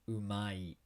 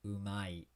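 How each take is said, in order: The two takes are said the same way.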